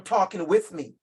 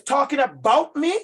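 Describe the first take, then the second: First: "with" stressed, then falling to a close. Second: "about" hit high and loud, rising at the end; stress on ABOUT. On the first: Teacher completing the contrast for colleagues, stress on "with". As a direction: lean on "with" and settle the phrase. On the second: Teacher setting up a contrast for colleagues, stress on "about". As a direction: punch "about", leave it hanging. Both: Real, not acted.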